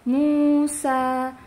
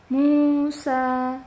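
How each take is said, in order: No difference in how they are said.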